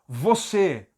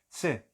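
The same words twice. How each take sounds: First: The word is said fully with clear vowels. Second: The word is said reduced with weakened vowels. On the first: "você é forte" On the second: "você é fraco"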